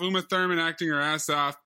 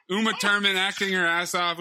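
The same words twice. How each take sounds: First: Said in the usual way. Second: Lightly imitating an Austrian accent; a hint of Arnold's Austrian accent on Uma Thurman. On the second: Shown as a demonstration. Host slips into Arnold's Austrian accent by accident. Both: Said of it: "He turned into Arnold for a second there".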